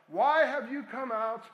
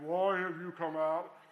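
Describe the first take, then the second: First: It is shouted in a normal voice. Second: It is said in a deep giant voice.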